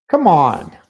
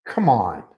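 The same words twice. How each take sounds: First: Louder frustrated come on; venting at the spill out loud; exasperated. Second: Said in the usual way. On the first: Real, not acted. Fed up with the spilled energy drink, louder exasperated outburst.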